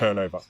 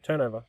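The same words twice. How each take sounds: First: It is said coldly and seriously. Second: It is said warmly and affectionately. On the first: "cold and clinical and like serious" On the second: "with like a bit of love"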